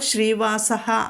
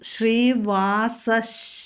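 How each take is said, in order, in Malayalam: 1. വാക്ക് ശ്വാസം കലർന്ന h ശബ്ദത്തിൽ അവസാനിക്കുന്നു. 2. വാക്ക് sh ശബ്ദത്തിൽ അവസാനിക്കുന്നു.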